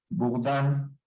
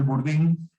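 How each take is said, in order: First: The name is pronounced with French sounds. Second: The name is pronounced with Spanish sounds.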